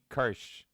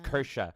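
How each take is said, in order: First: The name is said as one syllable. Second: The name is said as two syllables. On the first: The speaker calls it wrong. "I'm still calling her Kirsch" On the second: The speaker calls it right. "apparently it's"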